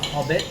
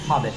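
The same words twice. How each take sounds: First: The name is said with a French pronunciation. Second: The name is said with an English pronunciation. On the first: "probably Le Hobbit in French" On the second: "in English it's reads Hobbit"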